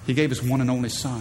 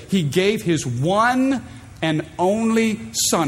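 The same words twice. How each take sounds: First: Said in the usual way. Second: Every word of "He gave his one and only son" drawn out slowly; "one and only son" stretched out with weight; slow stressed repeat. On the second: Shown as a demonstration.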